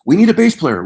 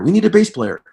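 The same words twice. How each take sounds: First: Raised, higher voice calling for a bass player; a singer shouting to the band for a bass player; calling out loud. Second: Raised, higher repeat of the call; a singer repeating his shout for a bass player; calling out again. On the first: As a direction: call across the tent for a bass player. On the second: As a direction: keep calling over the crowd. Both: Retold or imitated.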